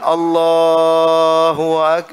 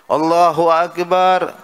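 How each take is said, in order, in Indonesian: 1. Frasa ini diucapkan dengan pelan dan dipanjangkan. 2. Frasa ini diucapkan sangat cepat. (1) "Atau kepanjangan ... kelamaan" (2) "boleh, boleh, cuman kecepatan"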